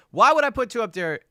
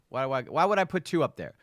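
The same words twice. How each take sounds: First: Exasperated louder repeat. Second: Said in the usual way. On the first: Real, not acted.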